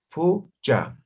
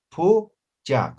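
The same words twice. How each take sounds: First: Said in the usual way. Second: Pucha split in two, Pu-cha, like two separate words; syllable by syllable. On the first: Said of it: "si tienen alguna complicación en pronunciar". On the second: Shown as a demonstration. Teacher splitting Pucha for students who struggle, syllable by syllable. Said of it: "como si fueran dos palabras".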